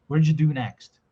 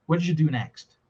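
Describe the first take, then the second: Both takes have the same delivery.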